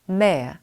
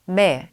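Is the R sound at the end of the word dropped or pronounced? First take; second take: dropped; dropped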